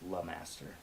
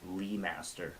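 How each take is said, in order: First: The first syllable is said as 'la'. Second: The first syllable is said as 'lee'. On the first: The speaker calls it right. "but it's La Master" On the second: The speaker calls it wrong. "people mess up my last name all the time"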